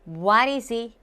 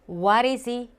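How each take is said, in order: No difference in how they are said.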